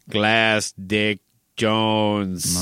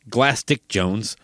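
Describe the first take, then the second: First: The phrase is said slowly and deliberately. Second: The phrase is said at a normal pace.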